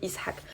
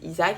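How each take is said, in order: First: The name is pronounced the Arabic way. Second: The name is pronounced the French way. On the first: "en arabe, ça se dit Ishak" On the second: "en français, ça se dit Isaac"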